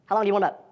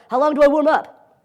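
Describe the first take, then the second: First: Said in the usual way. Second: High, loud, drawn-out student voice; exaggerated questioning student; mock student question.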